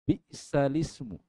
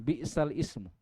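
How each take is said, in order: First: The lam joins the next word as 'lismu'. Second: 'Ismu' starts fresh after a separate 'bi'sal'. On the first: The speaker calls it right. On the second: The speaker calls it wrong. "bukan bi'sal ismu"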